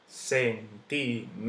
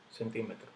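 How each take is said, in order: First: Centímetro split as cen-tí-me-tro; syllable by syllable. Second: Said in the usual way. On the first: Shown as a demonstration. Teacher counting syllables for students, slow, separated syllables. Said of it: "última sílaba". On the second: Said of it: "lleva su tilde".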